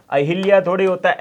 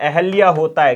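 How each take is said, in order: First: अहिल्या with इ after ह, quick dismissive; wrong form. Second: अहल्या with no इ, stress on अहल्या; correct form. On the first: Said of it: "अहिल्या शब्द गलत है". (अहिल्या को गलत रूप की तरह जल्दी बोलना) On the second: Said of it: "अहल्या शब्द क्या होता है भाई? सही होता है।". (सही रूप अहल्या पर ज़ोर) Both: Shown as a demonstration.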